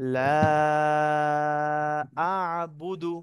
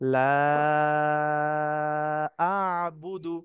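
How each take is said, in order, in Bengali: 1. 'la' এর স্বরধ্বনিটি লম্বা করে টেনে বলা হয়। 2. 'la' এর স্বরধ্বনিটি লম্বা করে টেনে বলা হয়।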